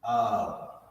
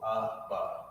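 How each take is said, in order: First: The two letters are joined into one syllable. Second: Each letter is said as its own syllable. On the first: The speaker calls it wrong. "If you had them connected like this, then it would change the pronunciation to Ab" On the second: The speaker calls it right. "each letter is pronounced by itself"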